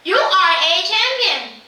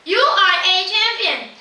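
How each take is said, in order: First: High, loud shout of praise; the boy screams toward the mountain, high and loud. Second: Loud, high echo reply. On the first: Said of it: "Again the man screams". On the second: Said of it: "The voice replies". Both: A narrator's reading.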